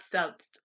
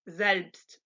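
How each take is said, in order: First: Selbst begun with a voiceless 's', the mistaken way; English hissed S. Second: Selbst begun with a buzzed 'z'; German voiced S. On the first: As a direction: say selbst as 'selpst'. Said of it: "not selbst". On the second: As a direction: say selbst as 'zelpst'. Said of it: "like the Z in zoo". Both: Shown as a demonstration.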